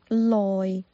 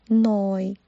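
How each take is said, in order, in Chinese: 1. 这个字以 l 音开头。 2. 这个字以 n 音开头。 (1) "也可以发成loi" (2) "下一个是noi"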